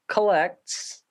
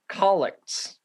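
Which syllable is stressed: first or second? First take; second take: second; first. First: The stress is on the second syllable. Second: The stress is on the first syllable. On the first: The speaker calls it wrong. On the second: The speaker calls it right.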